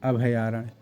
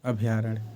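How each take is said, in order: The two takes are said the same way.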